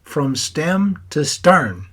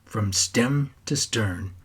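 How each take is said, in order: First: "from stem to stern" in a mock Irish accent, higher, louder and very slow; Irish accent imitation. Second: Slow, every word of "From stem to stern" spaced out; slow quoted saying. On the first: Grandson laughing with Aunt Helen, aping Pops's Irish accent. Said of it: "your Irish accent". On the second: Retold or imitated. Grandson fondly slowing down to quote Pops's saying. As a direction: savour Pops's old saying slowly. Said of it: "just like you always used to say".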